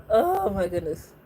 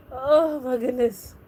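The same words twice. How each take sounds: First: Said in the usual way. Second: Slow, drawn-out oh my goodness; dreamy slow sigh of delight; slow swoon. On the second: Real, not acted. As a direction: swoon over the actors. Swooning over vampire actors.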